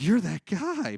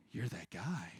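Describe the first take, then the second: First: Accusing shout. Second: Whisper. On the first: Acted confrontation, louder take. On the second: Acted confrontation at a bar. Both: Acted.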